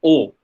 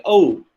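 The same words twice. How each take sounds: First: "O" as one long steady vowel; lengthened monophthong. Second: "O" gliding from "oh" to "oo"; diphthong. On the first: Lecturer showing the Indian vowel, "O" long and pure. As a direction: stretch "O" out without any glide. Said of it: "lengthen the vowel and it make it a O". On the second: Lecturer showing the basic English vowel, "O" as a diphthong. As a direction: let "O" slide into a closing "oo". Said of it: "It's basically O". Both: Shown as a demonstration.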